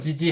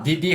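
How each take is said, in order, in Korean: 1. 이 이름은 'j' 소리로 시작해요. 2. 이 이름은 평범한 'd' 소리로 시작해요. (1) "지지 할 수 있고 지역에 따라" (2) "디디 할 수 있고"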